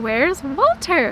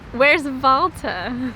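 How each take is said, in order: First: Walter is said with an American English accent. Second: Walter is said with a German accent. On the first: The speaker calls it wrong. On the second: The speaker calls it right.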